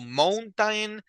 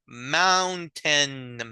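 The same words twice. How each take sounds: First: The first vowel is a closed 'o' sound. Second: The first vowel is an open 'ow' sound. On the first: The speaker calls it wrong. "the pronunciation is not mountain" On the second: The speaker calls it right. "So it's like very open"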